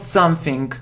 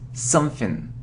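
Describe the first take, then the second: First: The ending has an added k sound. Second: The ending has no added k sound. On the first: The speaker calls it wrong. "not something" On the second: The speaker calls it right. "it's something"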